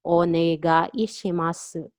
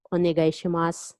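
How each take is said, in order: First: "Onegaishimasu" drawn out syllable by syllable; "Onegaishimasu" slow and carefully separated; slowed-down model. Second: Said in the usual way. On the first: Shown as a demonstration. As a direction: say "Onegaishimasu" slowly for learners. Teacher breaks phrase up slowly.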